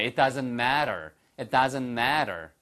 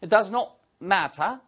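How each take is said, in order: First: American "matter" with a tapped t; American accent. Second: Higher British English, crisp t in "matter"; British "matter" with no final r; British accent. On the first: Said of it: "한번 미국식으로 한번 해보실까요". (미국식 영어 발음) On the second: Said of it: "똑같이 영국식 발음이잖아요". (영국식 영어 발음) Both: Shown as a demonstration.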